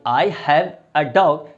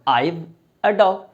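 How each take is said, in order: First: 'I have' is said as two full words. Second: 'I have' is shortened to one syllable, 'I've'. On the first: "आप बोले आई हैव a dog" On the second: "या बोले आइव a dog"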